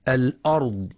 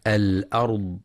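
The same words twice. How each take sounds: First: الأرض with a thick, dark hamza; heavy hamza mistake. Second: الأرض with a thin, light hamza. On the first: Teacher showing what not to read, heavy hamza in الأرض. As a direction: darken the opening glottal stop and vowel of الأرض. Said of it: "بتفخيم الهمزة". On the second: Teacher showing readers the correct word, light hamza in الأرض. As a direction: keep the opening glottal stop of الأرض light, not heavy. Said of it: "لترقيق الهمزة في كلمة". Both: Shown as a demonstration.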